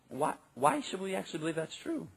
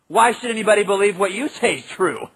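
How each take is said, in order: First: It is said in a respectful, sincere tone. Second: It is said in a mocking, scornful tone.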